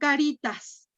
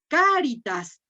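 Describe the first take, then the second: First: The stress is on the second syllable. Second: The stress is on the first syllable. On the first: It sounds like the Spanish word for little faces. The speaker calls it wrong. "no caritas" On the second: It is the Latin word meaning charity. The speaker calls it right. "fíjate cómo lo acentué... siempre son esdrújulas"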